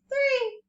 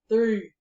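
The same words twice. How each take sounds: First: It is said in a high-pitched voice. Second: It is said in a deep, low voice. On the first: "in a high voice" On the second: "let's do it in a deep voice"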